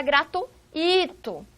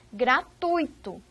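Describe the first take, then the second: First: Gratuito broken as gra-tu-I-to, stress on the i; wrong pronunciation. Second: Gratuito as gra-TUI-to, stressed u gliding into i; slow, ui held in one syllable; correct pronunciation. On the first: Teacher warns students against mispronouncing gratuito, exaggerated hiatus. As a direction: split u and i, hit the I in gratuito. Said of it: "Não é gratuito". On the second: Teacher shows students how gratuito is pronounced, careful diphthong. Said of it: "a pronúncia é gratuito". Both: Shown as a demonstration.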